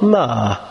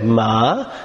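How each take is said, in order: First: The pitch falls across the word. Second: The pitch rises across the word. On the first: "If it's falling" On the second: "if your tone is rising as you say it"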